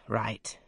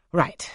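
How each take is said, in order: First: Said in the usual way. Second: A loud, higher burst on "Right"; "Right" called out loud and higher; sudden exclaim. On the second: A narrator's reading. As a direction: snap "Right" out as the idea strikes. Rochester recollecting, exclaims.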